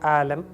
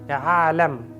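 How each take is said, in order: First: The word begins with a plain vowel. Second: The word begins with a throaty ain sound. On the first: The speaker calls it wrong. "It's not a alam" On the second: The speaker calls it right. "Try to say it with ain"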